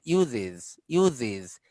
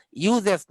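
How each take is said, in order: First: "ইউজেস" lower, as "yu-ziz"; iz ending. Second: "ইউজেস" loud, as "yu-zes"; wrong es ending. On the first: Teacher repeating the correction, ইউজেস as yu-ziz. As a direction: end "ইউজেস" with short i and z. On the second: Teacher showing the error, ইউজেস ending in zes. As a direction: open the last vowel of "ইউজেস" to e. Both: Shown as a demonstration. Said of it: "ইউজেস না".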